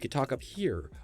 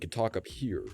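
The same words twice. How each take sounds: First: The voice resonates higher, in the throat. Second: The voice resonates low in the upper chest. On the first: "which is where your voice is actually resonating in your throat" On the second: "which is the upper um, torso, like part of your torso, where your voice resonates there"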